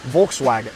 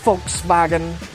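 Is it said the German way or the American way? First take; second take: American; German. First: It is said with an American pronunciation. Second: It is said with a German pronunciation.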